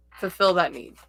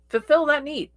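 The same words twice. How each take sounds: First: Said in the usual way. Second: Higher emphatic repeat. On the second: Shown as a demonstration. Urging viewers to help others, repeat pitched high. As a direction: pitch it way up on Fulfill. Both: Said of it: "repeated advice".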